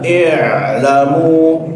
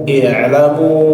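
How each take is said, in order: First: The ain sound is pressed hard and exaggerated. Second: The ain sound is said lightly and plainly. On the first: The speaker calls it wrong. "jangan berlebihan" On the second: The speaker calls it right. "tapi biasa aja"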